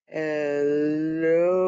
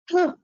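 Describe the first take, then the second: First: It is said very slowly. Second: It is said very fast.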